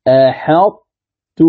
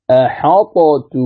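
First: Very slow أحطت, ط merged into ت keeping its emphasis; أحطت with a heavy doubled ت, no qalqala; correct recitation. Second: Slow أحطت with the ط sounded; أحطت with a distinct ط before ت; original form. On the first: Teacher giving students the correct reading, very slow. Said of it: "هكذا القراءة الصحيحة". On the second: Teacher showing the underlying form to students. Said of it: "هكذا تقرأ". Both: Shown as a demonstration.

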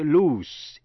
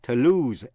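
First: "loose" ending in a hissed s. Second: "lose" ending in a buzzed z. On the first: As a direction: draw out "loose" to an unvoiced sss. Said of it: "khi đọc là S". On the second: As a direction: finish "lose" on a voiced zzz. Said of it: "khi đọc là Z". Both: Shown as a demonstration.

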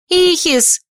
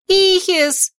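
First: High, loud call of a name; cry out. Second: High-pitched cry of a name; shrill cry. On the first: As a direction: shout the name out loud and sharp. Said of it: "вскрикнула я". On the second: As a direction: call the name out high and frightened. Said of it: "взвизгнула я". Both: A narrator's reading.

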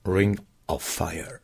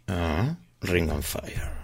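First: "[name]" whispered slowly, "of" clearly said and rising at the end; slow careful whisper of "[name]", stress on "Ring"; careful pronunciation. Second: Slow words round a cigarette; cigarette in mouth. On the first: Shown as a demonstration. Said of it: "Pronuncio mejor". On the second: Real, not acted. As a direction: talk with a cigarette between lips. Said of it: "con un cigarrillo en la boca no".

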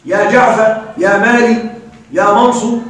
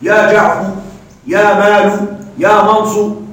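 First: يا جعفر said with its final fatha kept, جعفَ; original vowel kept. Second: يا جعفر said as جعفُ, ending in u; ending with damma. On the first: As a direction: keep the vowel before the cut letter: يا جعفَ, يا مالِ. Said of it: "هل سنبقيه على نفس حركته؟". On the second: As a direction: end the shortened name on u: يا جعفُ, يا مالُ. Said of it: "لو لم يحذف شيء؟". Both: Shown as a demonstration.

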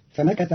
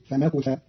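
First: Said in the usual way. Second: فمكث said "fa-makutha"; فمكث with "ku" in place of "ka"; damma on kaf. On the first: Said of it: "قرأ قالون كلمة فمكث". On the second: Shown as a demonstration. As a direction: put an u after the k in فمكث. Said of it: "بضم الكاف".

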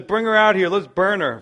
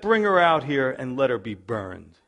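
First: Much higher, louder, hammed-up command to burn her; acted Judah calling for her death; mock furious order. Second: Said in the usual way. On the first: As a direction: bark it like a hypocrite judge.

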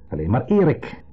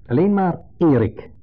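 First: Erik hit sharply and loud; sharp stress on Erik. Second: Alleen maar Erik, slow, high and loud; sharp, slow stress. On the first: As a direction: bite down on the name Erik. (scherpe nadruk op Erik) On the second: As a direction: spit it out slowly and sharply. (langzaam en scherp, nadruk op Erik) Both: Retold or imitated. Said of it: "heel scherp, met de nadruk op de naam".

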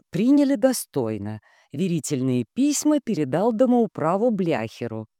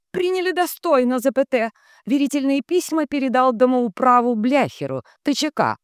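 First: Even, slightly raised reading; composed dictating voice; telegram dictation. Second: Very high, loud echo; high-pitched relay drone; entranced telegraph operator. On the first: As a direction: dictate the message line by line. Shinobi dictates. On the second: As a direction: chant out text and punctuation like a transmitter. Dunya echoes the telegram. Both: A narrator's reading.

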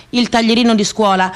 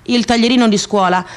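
Both takes have the same delivery.

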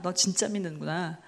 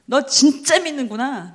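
First: Softer, lower voice, 진짜 held back; hushed acknowledgement, dropping in pitch; God's quiet recognition. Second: Slow, with 진짜 stretched and hit hard; emphatic 진짜, long and strong; God's emphatic recognition. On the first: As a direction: say it low and gently subdued, as if to oneself. God acknowledges faith, softer repeat. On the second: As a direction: lean heavily on 진짜, drawing it out. God acknowledges faith, first take. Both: Acted.

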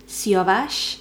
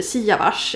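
First: Siavash said slowly, the Persian way; Persian pronunciation. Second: Siavash said the Swedified way; Swedish pronunciation. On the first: Naming a new colleague, Siavash in Persian pronunciation. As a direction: say "Siavash" as a Persian speaker would. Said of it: "uttalar det så på persiskt vis". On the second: Showing how everyone else says it, Siavash in Swedish pronunciation. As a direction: say "Siavash" as Swedes read it. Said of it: "Alla andra säger". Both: Shown as a demonstration.

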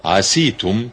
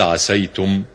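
First: عسيتم with a long i after the s, "aseetum"; kasra on sin. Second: عسيتم with an a after the s, "asaytum"; fatha on sin. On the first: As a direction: give عسيتم a -see- vowel instead of -say-. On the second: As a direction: give عسيتم its -say- diphthong, slowly. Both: Shown as a demonstration. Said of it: "بالفتح والكسر لغتان".

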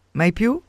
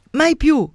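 First: Rising, half-laughing "Mai più?" asked back in disbelief; incredulous question. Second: "Mai più!" cried out high and loud, laughing; laughing shout. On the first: ("Mai più?" chiesto incredula, con tono ascendente) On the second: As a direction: fling "Mai più!" back with a laughing cry. ("Mai più!" gridato ridendo, acuto e forte) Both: Acted. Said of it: "gli gridò ridendo".

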